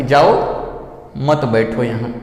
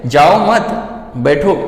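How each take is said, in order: First: "जाओ", long pause, lower "मत बैठो यहाँ"; pause after जाओ. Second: "जाओ मत" held together, then "बैठो"; pause after मत. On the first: Teacher gives what the listener hears, pause after जाओ. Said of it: "सामने वाला क्या सुन रहा है". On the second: Teacher voices the speaker's meaning, pause after मत. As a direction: break after मत, leaving बैठो on its own. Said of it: "बोलने वाला क्या बोल रहा है". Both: Shown as a demonstration.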